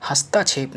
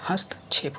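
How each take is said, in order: First: हस्तक्षेप with long aa, hasta-chhep; wrong form. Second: हस्तक्षेप as hast-chhep, short ta; corrected form. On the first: Teacher shows the error, हस्तक्षेप with long ta. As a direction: lengthen the ta in हस्तक्षेप. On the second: Teacher corrects students, हस्तक्षेप without long aa. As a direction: clip the ta in हस्तक्षेप. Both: Shown as a demonstration. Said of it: "नहीं होता है".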